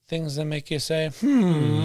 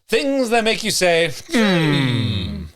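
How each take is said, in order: First: It is said flatly with little energy. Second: It is said with more energy and enthusiasm. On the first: The speaker calls it wrong. "Not much enthusiasm on that one" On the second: The speaker calls it right. "Is that better?"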